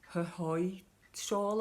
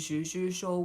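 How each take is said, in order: First: The name begins with a breathy H sound. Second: The name begins with an English J sound. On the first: "it's kind of more like her" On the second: "I just keep calling it the Juju shawl"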